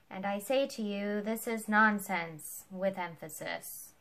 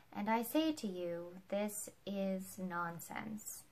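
First: Louder and slower, hammering every word; loud mock emphasis. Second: Said in the usual way. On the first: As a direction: read the stage note aloud as if it were part of the speech. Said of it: "And Ford read it aloud". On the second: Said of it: "the sentence was".

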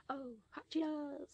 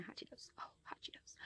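First: High voice. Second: Whisper. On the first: Savoring snack, high voice. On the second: Savoring snack, whispered. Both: Real, not acted.

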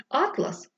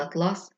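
First: Атлас stressed on the first syllable, ÁT-las. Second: Атлас stressed on the second syllable, at-LÁS; stress on last syllable. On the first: Storyteller giving the original word, first-syllable stress. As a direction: hit the first vowel of атлас. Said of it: "замість атлас утворився атлас". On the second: Storyteller showing the changed word, second-syllable stress. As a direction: hit the second vowel of атлас. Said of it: "утворився атлас". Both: Shown as a demonstration.

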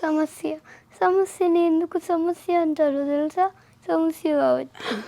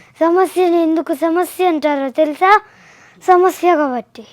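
First: Mock tearful delivery with a sob at the end; pretend crying. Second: Loud, forceful angry dialogue; pretend anger. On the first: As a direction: act as if crying. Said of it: "ఏడుస్తున్నట్టు చెప్పు". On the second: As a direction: act it out angrily, hitting each word hard. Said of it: "కోపంగా చెప్పాలి ఇప్పుడు".

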